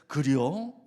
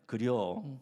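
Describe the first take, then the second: First: It sounds surprised. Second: It sounds understanding.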